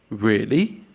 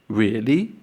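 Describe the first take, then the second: No difference in how they are said.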